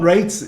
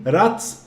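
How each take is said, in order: First: The name has a long 'ay' vowel. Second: The name has a short 'a' vowel. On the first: The speaker calls it wrong. "not Rates" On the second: The speaker calls it right. "he's French, so it would be Melvin Ratz"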